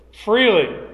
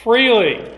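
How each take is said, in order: First: Freely again high and loud, falling; firm repeated Freely; repeated emphatic freely. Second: Freely said high and loud, falling; a loud, lifted Freely; emphatic freely. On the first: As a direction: echo Freely with the same force. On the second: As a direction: ring out Freely like a proclamation. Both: Shown as a demonstration. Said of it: "Notice the text".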